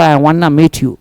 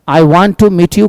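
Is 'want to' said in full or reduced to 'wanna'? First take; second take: reduced; full. First: 'Want to' is blended into 'wanna'. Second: 'Want to' is said as two full words. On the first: "वन्ना का प्रयोग American English में बोलचाल के लिए" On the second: "I वांट टू meet you की जगह पर"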